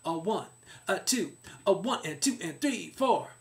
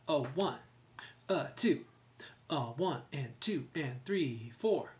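First: The count is spoken at a fast tempo. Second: The count is spoken at a slow tempo. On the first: "That could be a faster tempo" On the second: "Or a slower tempo"

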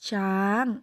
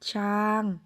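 First: The syllable is said with a high tone. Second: The syllable is said with a mid level tone. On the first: "เสียงตรี" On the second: "ต่อมาเสียงสามัญ"

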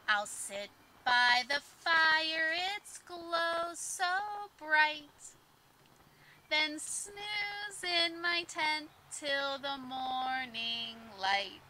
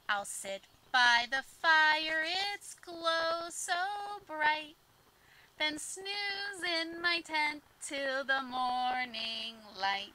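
First: It is said at a slower pace. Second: It is said at a faster pace.

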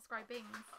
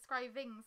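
First: The middle consonant is a b sound. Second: The middle consonant is a v sound. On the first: The speaker calls it wrong. "not scrybings" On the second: The speaker calls it right. "because it's scryvings"

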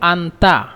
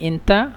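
First: It begins with an 'a' vowel, standard Arabic. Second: It begins with an 'e' vowel, Egyptian dialect. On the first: This is the standard form. "শুদ্ধ ভাষা হলো আন্তা" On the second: This is the regional Egyptian form. "এন্তা মানে মিশরের আঞ্চলিক ভাষা"

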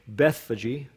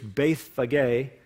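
First: The name is given its English pronunciation. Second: The name is given its Greek pronunciation. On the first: "Some have pronounced it in English" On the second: "In Greek, it's Bethphage"

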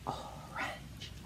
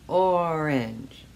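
First: It is whispered. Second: It is spoken in a normal voice.

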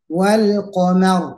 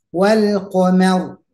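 Both takes have the same delivery.

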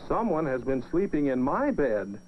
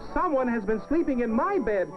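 First: The voice is medium-sized, neither deep nor tiny. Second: The voice is small and high. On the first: "Mama Bear said in her middle-sized voice" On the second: "he said in his wee little voice"

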